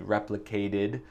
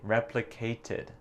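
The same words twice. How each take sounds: First: The middle consonant is a soft d sound. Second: The middle consonant is a clear t. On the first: It sounds American. "Je dis replicated avec mon accent euh, américain" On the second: It sounds less American. "Elle a dit replicated avec le T"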